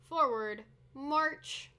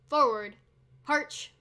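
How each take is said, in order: First: The last word begins with an M sound. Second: The last word begins with an H sound. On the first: The speaker calls it wrong. "Instead of a mm sound" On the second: The speaker calls it right. "it's a h sound"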